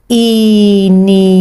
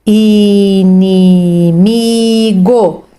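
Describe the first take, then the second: First: "Inimigo" drawn out syllable by syllable; slow syllables. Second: "inimigo" stretched out very slowly. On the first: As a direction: sound out "Inimigo" for a child. (sílaba por sílaba) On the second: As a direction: read "inimigo" stretched for a beginner. (bem lento e esticado) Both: Shown as a demonstration. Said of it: "sílabas".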